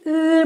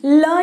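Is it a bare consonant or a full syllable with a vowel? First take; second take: bare consonant; full syllable. First: A bare consonant with the tongue raised. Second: A full syllable with a vowel after it. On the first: The speaker calls it right. "जीभ को ऊपर लेकर जाना है" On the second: The speaker calls it wrong. "ल नहीं"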